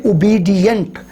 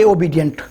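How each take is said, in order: First: ओबीडिएंट with oo-bee-dee-ent; ओबीडिएंट starting with u sound; correct obedient. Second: ओबीडिएंट with nasal o-bee-dyunt; ओबीडिएंट with o and nasal vowel; wrong obedient. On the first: Teacher modelling ओबीडिएंट. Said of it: "तो इसको कहेंगे". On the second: Teacher showing wrong ओबीडिएंट. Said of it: "ना कि". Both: Shown as a demonstration.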